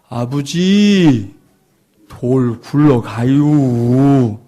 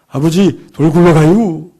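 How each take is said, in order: First: The phrase is drawn out very slowly. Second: The phrase is spoken quickly. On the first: The warning comes too late to help. The speaker calls it wrong. "발음을 너무 늦게 하는 바람에" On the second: The warning comes in time. The speaker calls it right. "발음을 빨리 할 수 있도록"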